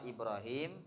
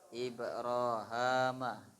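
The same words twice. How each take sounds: First: The name ends with the syllable 'him'. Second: The name ends with the syllable 'ham'. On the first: "yang pertama Ibrahim" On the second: "Yang kedua pakai ha"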